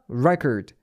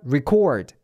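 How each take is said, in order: First: The stress is on the first syllable. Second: The stress is on the second syllable. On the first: It names a written record. "명사는 앞에 re, record, 강사도 앞에 있어요" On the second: It means to record something. "re가 되고 뒤에 cord, or 이렇게 발음이 돼요"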